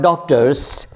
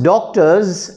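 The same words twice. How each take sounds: First: The final sound is a hissing S. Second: The final sound is a buzzing Z. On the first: The speaker calls it wrong. "and not doctors" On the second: The speaker calls it right. "it is pronounced doctors"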